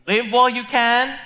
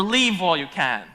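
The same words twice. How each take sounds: First: "Live" with a short i, as in give; "Live while you can", short i in "Live". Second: "Leave" with a long ee, as in sleeve; "Leave while you can", long ee in "Leave". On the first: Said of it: "Is she saying". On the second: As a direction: stretch the ee in "Leave". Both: Shown as a demonstration.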